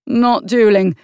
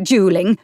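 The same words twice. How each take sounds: First: NOT stressed, falling firmly; firm correction. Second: Said in the usual way. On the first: A narrator's reading. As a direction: plant the word Not hard. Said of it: "he said firmly".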